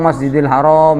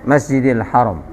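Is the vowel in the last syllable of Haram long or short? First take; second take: long; short. First: The last vowel of Haram is drawn out long. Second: The last vowel of Haram is kept short. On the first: The word would mean forbidden. The speaker calls it wrong. "jangan ngomong Masjidil Haram" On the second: The mosque that is honored. The speaker calls it right. "pendek dia"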